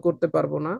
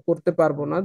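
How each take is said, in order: Both takes have the same delivery.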